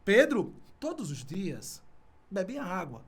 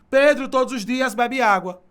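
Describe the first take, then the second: First: There is a pause right after 'Pedro'. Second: It runs on with no pause after 'Pedro'. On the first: Pedro is being addressed directly. The speaker calls it right. "diz assim, olha" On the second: Pedro is the subject of the sentence. The speaker calls it wrong. "se fosse continuidade, seria assim"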